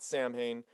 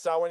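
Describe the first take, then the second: First: The name is said the way it is spelled. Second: The name is said with its Gaelic pronunciation. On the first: This is how the band's singer says it. The speaker calls it wrong. "he calls it Samhain" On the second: This is the proper pronunciation of the word. The speaker calls it right. "it's pronounced Samhain because it's like a Gaelic thing"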